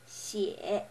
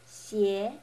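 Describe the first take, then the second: First: It is said with the third tone. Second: It is said with the second tone. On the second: "The second"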